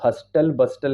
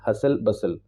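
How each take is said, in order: First: A t sound is pronounced in both words. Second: No t sound is pronounced in either word. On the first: The speaker calls it wrong. "इसको हस्टल बस्टल नहीं पढ़ना है" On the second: The speaker calls it right. "टी silent होता है"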